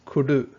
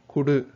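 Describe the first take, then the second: No difference in how they are said.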